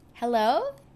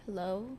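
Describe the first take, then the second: First: The greeting sounds happy and smiling. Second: The greeting sounds sad and downcast. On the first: The speaker calls it right. "happy hello" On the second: The speaker calls it wrong. "sad hello"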